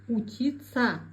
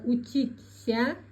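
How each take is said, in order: First: The ending is merged into one 'tsa' sound. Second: The ending is read letter by letter as spelled. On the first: This is how the word is actually said. "говорим" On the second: This is how the word is written. "Пишется"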